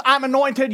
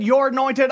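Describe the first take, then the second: First: I'm gesetzt betont; stress on I'm. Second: "you're" betont, anointed weich; stress on you're. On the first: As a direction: lean on I'm, then anointed. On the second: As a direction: push the word you're. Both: Shown as a demonstration.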